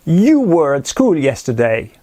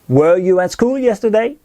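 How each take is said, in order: First: Said in the usual way. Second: Inverted question, yesterday rising; question tune. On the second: Shown as a demonstration. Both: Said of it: "d'inverser le sujet et le verbe".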